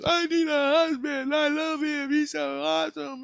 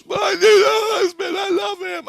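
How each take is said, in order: First: Very high squealed imitation of her; mimicking her hysterical shriek in a thin falsetto; mock scream. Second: Shrieked, wailing imitation of her; mock hysterical scream. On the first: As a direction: squeal it high without full volume. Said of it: "She just screamed right in his face". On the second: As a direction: scream it out very high and loud, hammed-up. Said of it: "So she just screamed".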